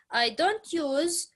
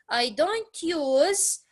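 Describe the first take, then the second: First: Said in the usual way. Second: "don't" stretched and risen, slowly; stress on don't. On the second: Shown as a demonstration. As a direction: lean on "don't", drawing it out higher. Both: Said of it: "So notice".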